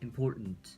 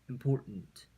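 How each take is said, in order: First: The middle T is said softly, not aspirated. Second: The middle T is said strongly and aspirated. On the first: The speaker calls it right. "important처럼 읽어주는 것이 중요합니다" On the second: The speaker calls it wrong. "T 발음을 그대로 거세게 읽어주는 것이 아니라 important보다는"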